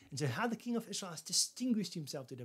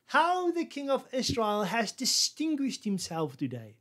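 First: Said in the usual way. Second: Slow, higher, sneering praise; mocking irony. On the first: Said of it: "but actually it's a ridicule". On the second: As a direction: fake praise that drips with scorn. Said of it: "She was actually ridiculing him".

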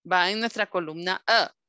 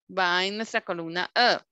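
No difference in how they are said.

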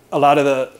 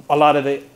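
The two takes are said the same way.

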